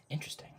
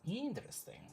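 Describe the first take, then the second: First: Said in the usual way. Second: Intrigued. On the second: Real, not acted. Reacting to her own chat, higher and intrigued. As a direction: lift "Interesting." up high, intrigued. Reading chat, repeats word.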